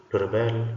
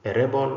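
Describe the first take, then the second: First: Rebel stressed on the second syllable; verb stress on rebel. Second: Rebel stressed high on the first syllable; noun stress on rebel. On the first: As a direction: lean on the BEL of rebel. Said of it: "stressed to form a verb". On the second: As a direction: punch the REB of rebel. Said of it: "stressed to form a noun". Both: Shown as a demonstration.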